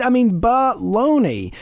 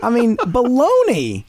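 First: Baloney repeated slow, louder and higher, falling at the end; drawn-out scornful baloney; emphatic baloney. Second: Baloney, drawn out slowly, louder and higher; loud slow scoffing baloney; emphatic baloney. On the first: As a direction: hammer it home a second time. Repeating the dismissal. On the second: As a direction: scoff hard at the idea, stretching baloney. Dismissing the idea of relaxing. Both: Real, not acted.

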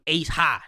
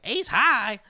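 First: Said in the usual way. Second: Put-on [name] meme. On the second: Quoting a meme about spades rules, mock incredulous. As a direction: throw it back as a meme-style challenge. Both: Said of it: "they did the [name] meme".

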